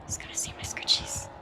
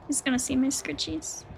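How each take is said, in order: First: Hushed unvoiced whisper. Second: Said in the usual way. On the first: Real, not acted. Hiding from the killer near the scratch marks, whispering. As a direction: whisper it so the killer won't hear.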